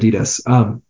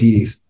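First: The first A sound is pronounced. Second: The first A sound is dropped. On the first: The speaker calls it right. "instead of Adidas" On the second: The speaker calls it wrong. "when I go fast, I say Adidas"

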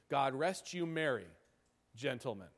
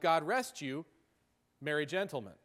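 First: The pause comes after "merry". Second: The pause comes after "you".

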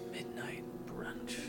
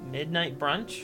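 First: It is said faster, mysterious, strong and sultry. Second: It is said plainly, like an uncertain question.

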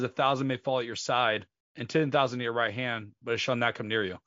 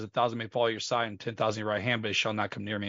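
First: The verse is said slowly. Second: The verse is said fast.

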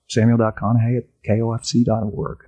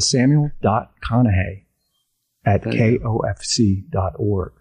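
First: It is said fast. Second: It is said slowly.

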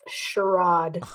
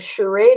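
First: It is said with a non-American pronunciation. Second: It is said with an American pronunciation.

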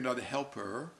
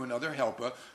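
First: It is said in a plain, neutral accent. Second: It is said in a Brooklyn New York accent. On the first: The speaker calls it right. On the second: The speaker calls it wrong.

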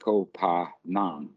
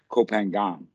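First: The name is said with Thai pronunciation. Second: The name is said with Western pronunciation. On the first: The speaker calls it right. "It's Koh Phangan" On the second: The speaker calls it wrong. "But the Westerners always pronounce it Koh Phangan"

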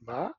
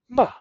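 First: The syllable is said with the second tone. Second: The syllable is said with the fourth tone. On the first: "it's second tone" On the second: "or it's fourth tone"

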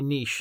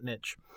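First: The word rhymes with quiche. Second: The word rhymes with kitsch. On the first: The speaker calls it right. "say niche, ... Because it's a quiche" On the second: The speaker calls it wrong. "not niche. ... not a kitsch"

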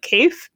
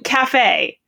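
First: The word is sounded out by basic spelling rules. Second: The word gets its familiar everyday pronunciation. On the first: The word was not recognized as a real word. The speaker calls it wrong. "applied like very like basic English pronunciation rules" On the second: The word was recognized correctly. The speaker calls it right. "it's cafe"

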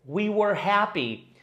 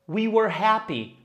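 No difference in how they are said.

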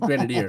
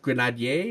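First: The word is said with an English pronunciation. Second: The word is said with a French pronunciation. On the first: "We say it with an English accent" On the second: "should it be pronounced"

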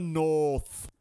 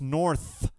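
First: North is said in an English-style accent. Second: North is said in an American-style accent. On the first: The speaker calls it wrong. "they all spoke like English people" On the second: The speaker calls it right. "It's North"

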